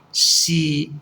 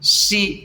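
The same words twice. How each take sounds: First: The pitch starts low and falls lower. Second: The pitch stays mid and level. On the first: "low falling" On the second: "that's the middle level"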